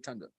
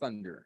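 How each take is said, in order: First: The word begins with a plain t sound. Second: The word begins with a th sound. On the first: This is how Caribbean speakers usually say it. "They don't use the T H. They all say thunder" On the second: This is the less common, more refined way to say it. "the only classy person in the Caribbean that says thunder"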